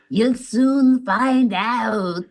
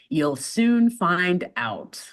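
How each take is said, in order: First: It is said in a creepy put-on French accent. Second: It is said in a plain American accent. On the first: The speaker calls it right. "His accent is weird" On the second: The speaker calls it wrong. "You said it with a such an American accent"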